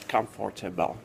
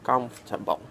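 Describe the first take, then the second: First: Every syllable is pronounced fully and separately. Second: Syllables are squeezed together into a shorter word. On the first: The speaker calls it wrong. "A native speaker would never say like that" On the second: The speaker calls it right. "He will squeeze words, squeeze this word"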